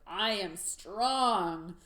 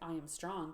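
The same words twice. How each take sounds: First: It is said loudly with fiery force. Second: It is said in a plain, mild way.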